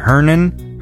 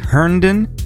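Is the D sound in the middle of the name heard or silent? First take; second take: silent; heard. First: The D in the middle is left out. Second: The D in the middle is pronounced. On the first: "Is there like a silent D?" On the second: "Am I saying that correctly?"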